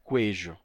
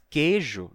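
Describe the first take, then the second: First: A w sound follows the k. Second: No w sound follows the k. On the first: This pronunciation never existed. The speaker calls it wrong. "nunca foi queijo" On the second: This is the real pronunciation. The speaker calls it right. "Mas queijo"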